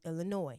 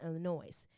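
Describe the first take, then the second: First: The final S is silent. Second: The final S is pronounced. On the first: The speaker calls it right. "The S is silent in Illinois" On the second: The speaker calls it wrong. "not Illinois"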